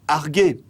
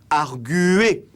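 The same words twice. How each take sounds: First: No 'u' vowel is heard after the g. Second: A 'u' vowel is heard after the g. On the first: The speaker calls it wrong. "que l'on ne prononce pas" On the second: The speaker calls it right. "le U que l'on prononce après un G"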